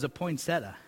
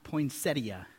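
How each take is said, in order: First: "poinsettia" clipped to three syllables, poin-set-ta, with no "i"; wrong pronunciation. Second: "poinsettia" said in full, poin-SET-ti-a with all four syllables and a soft d-like t; correct pronunciation. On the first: Pastor admitting he always said "poinsettia" wrong. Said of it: "I always thought it was". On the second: Pastor showing the congregation the right way to say poinsettia. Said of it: "that's actually how it's pronounced". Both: Shown as a demonstration.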